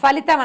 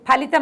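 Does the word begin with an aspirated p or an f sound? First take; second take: f; aspirated p. First: The word begins with an f sound. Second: The word begins with an aspirated p sound. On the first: The speaker calls it wrong. "అనకూడదు" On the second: The speaker calls it right. "అనాలి"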